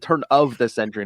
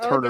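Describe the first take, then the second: First: Each word, including 'of', is said distinctly. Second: 'Turn of' runs together into 'turner'. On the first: The speaker calls it right. "it was a turn of the century" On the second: The speaker calls it wrong. "not Turner the century"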